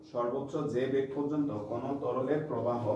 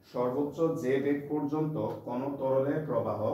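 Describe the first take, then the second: Both takes have the same delivery.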